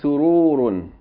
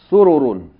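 First: The vowels are drawn out long. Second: The vowels are kept short. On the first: The speaker calls it wrong. "You're saying sururun. There's no long vowels in it" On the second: The speaker calls it right. "without any long vowels"

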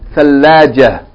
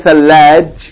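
First: The word ends with an added 'ah' sound. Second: The word ends abruptly on a consonant. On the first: The speaker calls it right. "You have to put fatha ha" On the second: The speaker calls it wrong. "But you can't say thalaj"

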